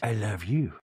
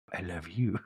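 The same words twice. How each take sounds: First: Low put-on voice; Meredith impression. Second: Much lower and softer take, rising at the end; Meredith impression, softer. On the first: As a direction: say it low and sultry-slow. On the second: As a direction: drop lower and quieter. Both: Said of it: "And Meredith goes".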